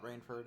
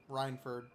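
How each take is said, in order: First: The first syllable sounds like 'rain'. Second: The first syllable sounds like 'rine'. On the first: The speaker calls it wrong. "not Rainford" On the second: The speaker calls it right. "Rhineford, not Rainford"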